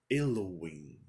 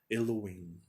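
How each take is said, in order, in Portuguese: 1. É dita com pronúncia brasileira. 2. É dita com pronúncia brasileira.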